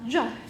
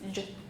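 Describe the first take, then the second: First: The consonant sound has a vowel added after it. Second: The consonant sound ends without any added vowel. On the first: The speaker calls it wrong. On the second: The speaker calls it right.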